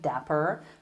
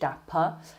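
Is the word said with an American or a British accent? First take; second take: American; British. First: It is said with an American accent. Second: It is said with a British accent. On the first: "If you're going for an American pronunciation" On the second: "but if you're British"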